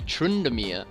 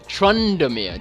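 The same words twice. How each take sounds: First: The name is said in a light, delicate way. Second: The name is said in a big, heavy way. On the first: This is the official name. "his name is actually Trundamir" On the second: This is the speaker's own preferred version. "I just like saying Trundamir"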